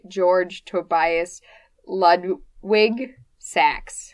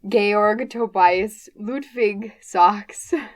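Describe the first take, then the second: First: The name is said in plain American English pronunciation. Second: The name is said in mixed German-American pronunciation. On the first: "an American person would say" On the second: "it's very much a mixture of German and American English that I'm saying"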